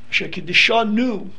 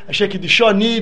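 First: It is said in a plain, non-Galician Hebrew accent. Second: It is said in a Galician Hasidic Hebrew accent.

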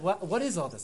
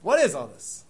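First: It is asked in a sincere, curious tone. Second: It is asked in a nasty, scornful tone. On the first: The asker genuinely wants to understand. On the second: The asker wants to ridicule the whole thing.

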